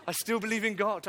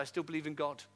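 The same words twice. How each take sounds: First: Louder and higher, proclaiming; declared loudly. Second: Said in the usual way. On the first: Acted. Preacher repeats his answer to the church, proclaimed. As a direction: ring it out as a declaration.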